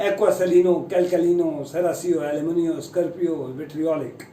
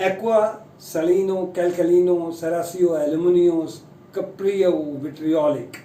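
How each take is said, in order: First: A quick run through "aquasalino, calcalino, serasio, aluminio, scarpio, vitriolic" for the class to repeat; a run-through for everyone to echo; say-along demo. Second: "aquasalino" drawn out very slowly, the rest said carefully and falling on "vitriolic"; careful corrected reading for learners to check against; correct pronunciation check. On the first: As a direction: lead the class through each word, trailing off on "vitriolic". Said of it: "एक बार फिर से बोलते हैं, आप भी बोलिए मेरे साथ साथ".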